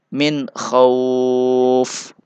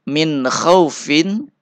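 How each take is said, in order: First: The phrase ends on an f consonant. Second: The phrase ends with a vowel and n. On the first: The reader stops at this word. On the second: The reading continues without a stop.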